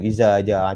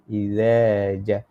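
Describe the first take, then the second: First: The consonant is a buzzing 'z' behind the teeth. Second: The consonant is a soft 'th' with the tongue out. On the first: The speaker calls it wrong. "Tu zai lah tu" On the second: The speaker calls it right. "Ujung lidah"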